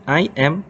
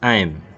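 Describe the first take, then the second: First: Both words are said fully and separately. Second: The two words are shortened into one syllable. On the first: "dari I am" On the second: "menjadi I'm"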